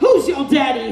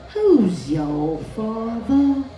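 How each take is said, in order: First: It is said in a plain American voice. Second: It is said in a stiff, posh English voice.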